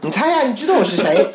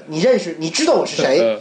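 First: Higher, lilting guess-who voice; teasing caller voice. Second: Far-off voice, teasing the guess; imitating playful caller. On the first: Retold or imitated. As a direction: tease him, make him guess. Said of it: "然后我说". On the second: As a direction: quote the caller like a teaser. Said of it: "拿起来第一句话跟我说".

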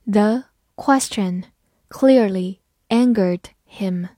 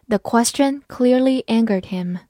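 First: Slow, word by word reading. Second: Said in the usual way. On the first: Shown as a demonstration. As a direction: take the sentence slowly, word by word. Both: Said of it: "好，慢读一遍".

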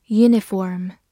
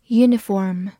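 No difference in how they are said.

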